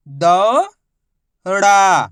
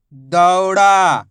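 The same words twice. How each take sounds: First: दौड़ा split into दौ, long pause, ड़ा; syllable by syllable. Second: दौड़ा as one drawn-out word; syllables joined. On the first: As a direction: stretch दौ upward, pause, then a falling ड़ा. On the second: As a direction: blend दौ and ड़ा without a pause. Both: Shown as a demonstration. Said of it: "उच्चारण करके आपस में लाके".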